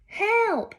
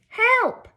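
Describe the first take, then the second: First: It is said quietly. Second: It is said loudly.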